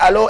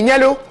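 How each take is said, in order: First: The word begins with a plain vowel sound. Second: The word begins with a palatal 'ny' sound. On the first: This is the usual way to answer the phone. "au lieu mu ne allo" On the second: This is how a friend answers the phone. "elle dit ñalo"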